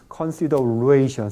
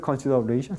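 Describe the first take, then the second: First: The stressed syllable is clearly lengthened. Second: The stressed syllable is short, not lengthened. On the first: The speaker calls it right. "sino consideration, se alarga" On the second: The speaker calls it wrong. "No se dice consideration"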